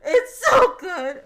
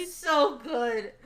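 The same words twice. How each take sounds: First: Higher, much louder cry of joy, drawn out; overwhelmed gush. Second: Gushing. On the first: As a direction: wail it out in delight. Gushing louder, crying out. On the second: Gushing after the chapter. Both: Real, not acted.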